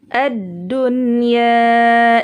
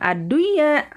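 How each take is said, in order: First: The n sound is pronounced clearly. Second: The n sound is merged into the y. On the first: The speaker calls it right. "dibaca jelas ya" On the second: The speaker calls it wrong. "bukan ad-duya"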